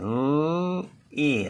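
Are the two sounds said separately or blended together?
separately. The two sounds are said apart with a pause. "Önce ağzımızdan l sesi çıkıyor. L, i. Sonra da i sesi"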